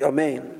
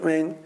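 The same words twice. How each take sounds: First: Every sound is pronounced fully and clearly. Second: The opening vowel is rushed and barely heard. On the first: The speaker calls it right. "You have to say the Amen very clearly" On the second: The speaker calls it wrong. "don't say the Aleph too quickly"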